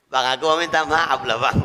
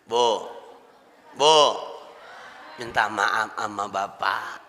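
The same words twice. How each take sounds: First: Imitating a wife apologizing through giggles; a half-joking sorry with laughter in it; laughing apology. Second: Slow, soft and low, fully sincere; sincere apology. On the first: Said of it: "minta maaf sambil ketawa". (minta maaf sambil tertawa) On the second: Shown as a demonstration. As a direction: ask forgiveness gently from the heart. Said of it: "Minta maafnya tulus, ikhlas dari hati". (minta maaf dengan tulus, pelan dan lembut)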